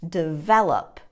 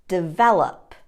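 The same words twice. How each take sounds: Both takes have the same delivery.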